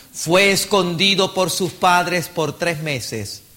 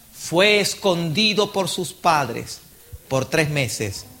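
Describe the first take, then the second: The two takes are said the same way.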